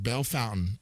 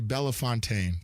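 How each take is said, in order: First: It is said like bell fountain. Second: It is said as the spelling suggests. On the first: This is how locals say the name. The speaker calls it right. "That word is pronounced Bell Fountain out there" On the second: This is how an outsider reads the name. The speaker calls it wrong. "It looks like it would be Bellefontaine"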